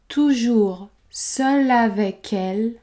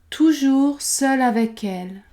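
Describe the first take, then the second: First: The phrase is said slowly and carefully. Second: The phrase is said at normal conversational speed. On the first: "prononcer la phrase lentement" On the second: "puis à vitesse normale"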